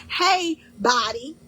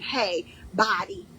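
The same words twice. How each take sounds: First: Loud cheerful call. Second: "Hey, body" said slowly, lightly, to your own body; slow gentle greeting. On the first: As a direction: hail your body like an old friend across the room. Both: Pretend. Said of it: "You're saying".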